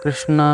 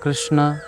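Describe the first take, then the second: First: The word ends with a full final vowel. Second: The word ends with a full final vowel.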